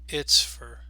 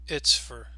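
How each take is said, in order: Both takes have the same delivery.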